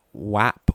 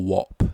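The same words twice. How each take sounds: First: "Wap" with a flat a, as in cat; pronunciation WAP. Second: "Wop" with an o, as in top; pronunciation WOP. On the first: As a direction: say "Wap" drawn out, rhyming with map. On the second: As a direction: say "Wop" rhyming with shop. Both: Shown as a demonstration. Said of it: "Wap or Wop?".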